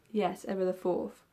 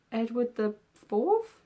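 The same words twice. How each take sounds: First: "Yes, Edward the Fourth." settled, with a falling, sure tune; confirming. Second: "Edward the Fourth?" asked slowly with a rising, doubtful tune; unsure question. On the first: Answering her own question about the king, settled. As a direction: confirm the name firmly, a little slower. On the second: Reading the king's name back, unsure and questioning. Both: Real, not acted.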